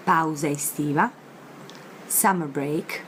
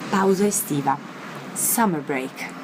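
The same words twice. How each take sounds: The two takes are said the same way.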